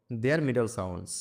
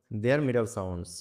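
First: Said in the usual way. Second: Very slow, word by word; slow reading. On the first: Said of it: "teacher reads phrase, then repeats slower". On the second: Shown as a demonstration. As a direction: drag out each word for pupils. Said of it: "teacher repeats phrase slowly". (খুব ধীরে, শব্দে শব্দে বলা)

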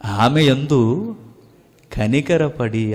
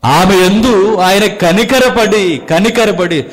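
First: Slow savoring. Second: Higher, louder, slow, hammering కనికరపడి; emphatic proclaiming. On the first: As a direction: linger tenderly on కనికరపడి, drawn out. (నెమ్మదిగా, మృదువుగా, ఆస్వాదిస్తూ) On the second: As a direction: proclaim ఆమె యందు ఆయన కనికరపడి with full force. (గట్టిగా, నెమ్మదిగా కనికరపడి నొక్కి చెప్పడం) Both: Shown as a demonstration. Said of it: "ఆ మాట ఎంత బాగుందో చూడండి".

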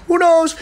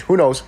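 First: High, loud falsetto repeat; playful squeal. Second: Said in the usual way. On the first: Pretend. Streamer teasing viewers about a house tour, playful squeal. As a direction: jump way up high and louder, playfully.

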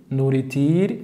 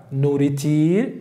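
Both takes have the same delivery.

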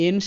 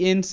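First: এন্স ending in sh, "ensh"; wrong sh ending. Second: এন্স ending in a clean s, "ens"; correct ending. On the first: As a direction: say এন্স as "ensh", with a hushing final sound. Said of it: "এন্স এমন কিন্তু নয়". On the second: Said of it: "এন্স হিসেবে উচ্চারিত". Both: Shown as a demonstration.

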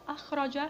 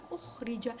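First: Said in the usual way. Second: أخرج said as ukhrij, u first, i before end; passive form. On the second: Shown as a demonstration. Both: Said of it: "بضم أوله وكسر ما قبل آخره".

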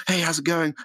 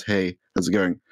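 First: Excited, high-pitched greeting; really enthusiastic. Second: Said in the usual way. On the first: Acted. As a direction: greet your first viewer with eager, high-pitched delight. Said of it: "Like, really enthusiastically". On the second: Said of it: "and he says".

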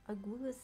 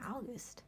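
First: August said as a puzzled question, rising at the end; tentative rising August; questioning rise. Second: August said softly and settled, falling at the end; quiet confident August. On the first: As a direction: try the name out, unsure, pitch going up. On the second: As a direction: land on the name with a quiet final drop. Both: Shown as a demonstration. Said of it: "however you pronounce them".

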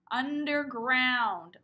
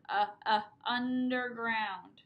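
First: Underground at half speed; slow stretched word. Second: Uh, uh, then underground very slowly; sounding out short u. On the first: Teacher drawing out underground for preschoolers. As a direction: pull every syllable long. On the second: Teacher sounding out short u for preschoolers, slow. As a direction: isolate the uh sound first. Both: Shown as a demonstration.

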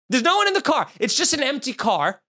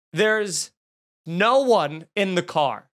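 First: Suddenly much higher, incredulous; exasperated disbelief. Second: Drawn-out words with a pause after the first; slow dramatic reveal. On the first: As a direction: repeat it in high-pitched disbelief. Repeats the reveal in disbelief. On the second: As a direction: let the reveal land slowly. Slow reveal in his story. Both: Retold or imitated.

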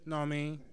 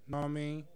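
The two takes are said the same way.

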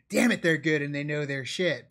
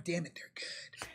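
First: Said in the usual way. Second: Hushed, grudging whisper. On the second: Acted. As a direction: breathe it under your breath. Grudging praise, then repeated aloud.

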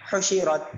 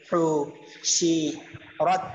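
First: Said in the usual way. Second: হু, শি, রত with a pause after each; broken-up reading of হু, শি, রত; syllable by syllable. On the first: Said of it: "এরকম". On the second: Shown as a demonstration. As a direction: sound out হু... শি... রত separately. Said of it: "এরপর উচ্চারণগুলো পড়বো".

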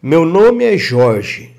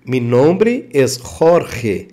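First: Said in the usual way. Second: Jorge said with a rough throat h, horhe, slowly; slow Spanish demo, Jorge as horhe. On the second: Shown as a demonstration. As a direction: give Jorge a raspy J like a strong R. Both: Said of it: "Jorge com som de R".

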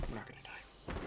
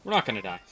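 First: Whispered reassurance to self; soft unvoiced whisper. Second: Said in the usual way. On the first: Real, not acted. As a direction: breathe it to calm yourself.

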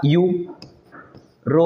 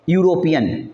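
First: European broken slowly into यू, रो, peon; syllable by syllable. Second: Said in the usual way. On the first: Shown as a demonstration. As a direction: sound out European with long gaps between parts. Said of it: "पहला क्या होगा". (European को टुकड़ों में, रुक-रुककर बोलते हुए) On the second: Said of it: "European का देखिए पहला क्या होगा".

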